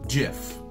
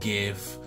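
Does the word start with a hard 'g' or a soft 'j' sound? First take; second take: soft 'j'; hard 'g'. First: The word starts with a soft 'j' sound. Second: The word starts with a hard 'g' sound. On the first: It is said like the peanut butter brand, as its creator intended. The speaker calls it right. "he intended the name to be pronounced exactly as the peanut butter brand" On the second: It is said like the 'g' in 'graphics', which it stands for. The speaker calls it wrong. "so I keep saying GIF because it makes sense, because it stands for graphics"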